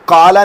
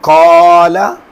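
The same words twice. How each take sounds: First: The long vowel is cut short. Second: The long vowel is stretched out. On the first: The speaker calls it wrong. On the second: The speaker calls it right.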